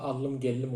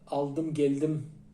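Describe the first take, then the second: First: A long doubled l replaces the d. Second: A d follows the l in each word. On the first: This is how some dialects say it. "L ikizleşir" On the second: This is the written standard form. "yazılır"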